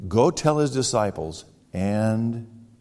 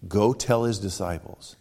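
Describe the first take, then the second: First: Drawn-out Go tell his disciples and; slow it down to set up the last word; slow, deliberate. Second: Said in the usual way. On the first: Shown as a demonstration. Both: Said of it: "did you get the other part of that?".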